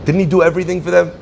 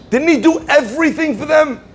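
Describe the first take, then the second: First: Rattled off fast at normal pitch; quick, flat repeat. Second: Pitched way up, incredulous; soaring rhetorical question. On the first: Preacher repeats his question quickly to the congregation, level and brisk. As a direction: toss it off fast, matter-of-fact. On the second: Preacher asks the congregation, pitched way up in disbelief. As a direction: throw the question high in disbelief. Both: Acted.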